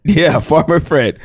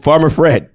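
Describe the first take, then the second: First: Slow twangy farmer voice; folksy farmer voice. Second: Folksy drawl. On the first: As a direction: drawl it like a country farmer. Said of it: "Coach Farmer Fred is his name". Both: Retold or imitated.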